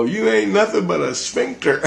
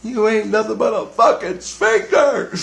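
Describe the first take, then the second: First: Much higher, sneering insult; mocking insult. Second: Much higher, punching fucking. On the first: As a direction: hurl the insult up high. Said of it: "And I go". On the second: Retold or imitated. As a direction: yell the insult, hitting fucking hard. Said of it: "I go".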